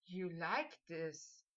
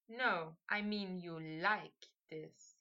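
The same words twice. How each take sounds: First: Slow, low, hushed question; drawn-out soft murmur of awe; breathed in awe. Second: Low, slow, lingering on "like"; hushed insistence with weight on "like"; meaningful repeat. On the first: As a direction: breathe it out softly, wonderstruck. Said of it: "Harry breathed out in awe". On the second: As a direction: draw out "like" softly to hint at more. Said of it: "Harry repeated". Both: A narrator's reading.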